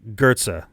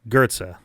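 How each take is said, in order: First: The first vowel sounds like 'er'. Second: The first vowel sounds like 'er'.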